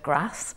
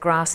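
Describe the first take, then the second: First: It is said in a northern English accent. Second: It is said in a posh southern English accent. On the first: This is how the speaker's own community says it. "instead of grass" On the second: This is how people from public school say it. "anyone who said grass"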